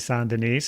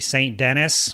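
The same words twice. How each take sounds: First: The name is pronounced the non-American way. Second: The name is pronounced the American way. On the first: "they say Saint Denis, so I know that's the proper proper way" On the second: "if you're American, you might say Saint Denis"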